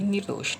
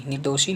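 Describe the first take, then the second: First: निर्दोष ending on sh; corrected form. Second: निर्दोषी ending in long ee; wrong form. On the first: Teacher corrects students, निर्दोष ending on sh. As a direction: drop the final ee in निर्दोष. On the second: Teacher shows the error, निर्दोषी ending in ee. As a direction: sound the final ee in निर्दोषी. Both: Shown as a demonstration. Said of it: "नहीं".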